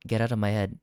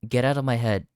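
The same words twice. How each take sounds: The two takes are said the same way.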